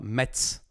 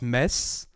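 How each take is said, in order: First: The word is said with a T sound. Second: The word is said without a T sound. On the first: "they say it like in America" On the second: "in French, I don't know why, but we don't say the T"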